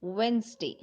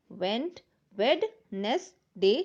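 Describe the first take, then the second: First: "वेडनेसडे" read as "वेन्ज़डे", the first d silent; real pronunciation. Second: "वेडनेसडे" slowly sounded out as written, every letter, with the d; spell-it-out "वेडनेसडे", slow and letter by letter; spelling pronunciation. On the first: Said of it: "तो क्या read करते हैं". ("वेडनेसडे" को "वेन्ज़डे" बोलें, ड silent) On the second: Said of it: "जब लिखेंगे और जब कंप्लीट हो जाए तो क्या रीड करते हैं". ("वेडनेसडे" को धीरे-धीरे लिखे हुए अक्षरों जैसा बोलें) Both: Shown as a demonstration.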